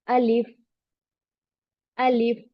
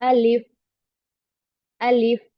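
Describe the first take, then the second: No difference in how they are said.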